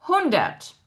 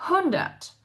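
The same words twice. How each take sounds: The two takes are said the same way.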